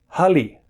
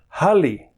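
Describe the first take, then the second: First: The middle consonant is an L sound. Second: The same.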